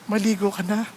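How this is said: It is said in a gentle, caring tone. The speaker corrects the listener out of care. The speaker calls it right. "in a loving way"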